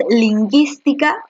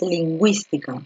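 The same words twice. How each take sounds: First: "lingüística" said as leen-GEES-tee-ka, no w, higher pitch; u silent. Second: "lingüística" said as leen-GWEES-tee-ka; u pronounced. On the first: Teacher offers students the wrong reading, ü silent in "lingüística". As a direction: drop the ü of "lingüística" and question it, higher. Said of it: "o tú dis-, tú dices". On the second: Teacher offers students the right reading, ü sounded in "lingüística". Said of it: "Tú dices lingüística, ¿cierto?". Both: Shown as a demonstration.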